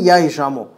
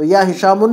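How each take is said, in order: First: "हिशामो" ending on an open u/o vowel, no n; single damma ending. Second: "हिशामुन" closed with -un; the rejected "हिशामुन", ending in a nasal; wrong tanween ending. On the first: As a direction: lower pitch, "हिशामो" left open at the end. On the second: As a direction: make the final n heard in "हिशामुन". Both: Shown as a demonstration. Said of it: "या हिशामुन नहीं".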